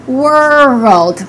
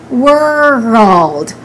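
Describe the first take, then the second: First: A short uh vowel separates R and L. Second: A short uh vowel separates R and L.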